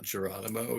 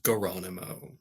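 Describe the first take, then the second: First: The name starts with a J sound. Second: The name starts with a hard G sound. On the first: This is the usual name. The speaker calls it wrong. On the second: This is the new spelling on the receipt. The speaker calls it right. "You could do like G U H"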